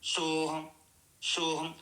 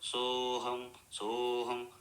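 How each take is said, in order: First: The word begins with an sh sound. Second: The word begins with a plain s sound. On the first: The speaker calls it wrong. "కొంతమంది ఈ సోహం బదులు షోహం షోహం అంటారు" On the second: The speaker calls it right. "సోహం మంత్రం"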